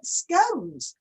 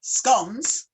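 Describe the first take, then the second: First: "scones" with a long O, like cones. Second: "scones" with a short O, like gone. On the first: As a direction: say "scones" rhyming with phones. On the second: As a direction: say "scones" rhyming with dons. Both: Shown as a demonstration. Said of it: "quite a few people call it a scone".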